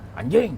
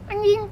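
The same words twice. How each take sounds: First: The word is said harshly, as a real insult. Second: The word is said playfully, as a joke. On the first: The other driver is really being insulted. The speaker calls it wrong. "Komedi kan enggak" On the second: It is a joke, so nobody should get angry. The speaker calls it right. "Biar dia nggak marah"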